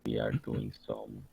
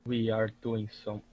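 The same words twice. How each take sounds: First: The voice sounds altered by a voice changer. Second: The voice sounds natural and unprocessed. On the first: The speaker calls it right. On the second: The speaker calls it wrong.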